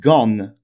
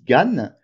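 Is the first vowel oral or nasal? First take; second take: nasal; oral. First: The first vowel is a nasal an sound. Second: The first vowel is an oral a sound. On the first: Other varieties of Picard say it this way. "on utilise, heu, un son an au lieu d'un son a" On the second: This is how the speaker's own family says it. "on dit Gane"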